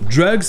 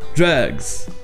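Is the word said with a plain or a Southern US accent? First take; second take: plain; Southern. First: The word is said with a plain, neutral accent. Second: The word is said with a Southern US accent. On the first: "qui est pas juste drugs" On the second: "fait vraiment sud des États-Unis"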